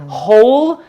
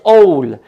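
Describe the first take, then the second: First: The word begins with an audible h sound. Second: The word begins without any h sound. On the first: "So when there is whole" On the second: "There is no uh, H uh, sound in French... it's like a silent letter"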